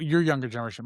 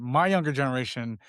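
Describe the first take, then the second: First: "your" leaned on to contrast; stress on your. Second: "My" leaned on to contrast; stress on My. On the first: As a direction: put the weight on "your". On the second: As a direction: put the weight on "My". Contrasts my with your generation. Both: Real, not acted.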